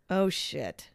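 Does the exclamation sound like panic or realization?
realization. It is said with quiet, dawning realization. The speaker has just realized where they are. "I just realized where I am"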